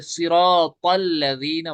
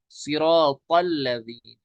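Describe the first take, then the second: First: सिरातल with a heavy emphatic ता; correct Arabic ta. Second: सिरातल slowly, with a heavy emphatic ता; correct heavy ta. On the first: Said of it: "ये वाला ता". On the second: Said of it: "तल लज़ीना नहीं". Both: Shown as a demonstration.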